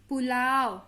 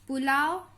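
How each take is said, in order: No difference in how they are said.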